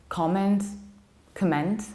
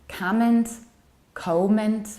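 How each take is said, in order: The two takes are said the same way.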